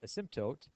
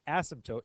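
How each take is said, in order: First: The stress is not on the first syllable. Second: The stress is on the first syllable. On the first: "I choose to say asymptote" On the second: "it puts the emphasis on but"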